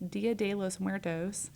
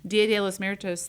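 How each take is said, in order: First: It is said with a native Spanish accent. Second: It is said with an anglicized English accent. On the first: The speaker calls it right. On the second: The speaker calls it wrong.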